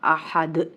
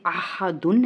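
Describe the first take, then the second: First: अहद cut to a vowelless final d; waqf stop. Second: अहादुन with the final -un sounded; full tanween ending. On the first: (अहद, दाल को साकिन करके) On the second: (अहादुन, आख़िर में तनवीन के साथ) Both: Shown as a demonstration. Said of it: "वक्फ की सूरत में क्या बन जाएगा".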